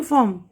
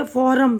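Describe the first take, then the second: First: फॉर्म with the R silent, one syllable "fawm". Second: फॉरम with the R sounded, two syllables FO-rum; फॉरम read letter by letter, with an audible R; R pronounced. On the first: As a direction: say फॉर्म as "fawm", long vowel, no R. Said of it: "आर silent होता है यहाँ पे". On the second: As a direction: say फॉरम as "FOR-um", R clearly voiced. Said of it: "फॉरम तो नहीं पढ़ रहे". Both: Shown as a demonstration.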